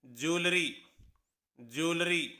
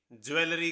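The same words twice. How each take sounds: First: ज्वेलरी as jol-ri, in two syllables; correct pronunciation. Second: ज्वेलरी with a full ज्वे and three syllables; spelling-style ज्वेलरी; common mispronunciation. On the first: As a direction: model ज्वेलरी twice, clipped to jolri. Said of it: "सही pronunciation है". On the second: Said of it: "लेकिन इसकी सही pronunciation है". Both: Shown as a demonstration.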